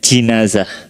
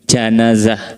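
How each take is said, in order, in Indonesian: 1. Vokal pertama adalah bunyi 'i'. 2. Vokal pertama adalah bunyi 'a'. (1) "maka dengan mengkasrohkan jimnya" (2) "maka dengan menfathahkan jim"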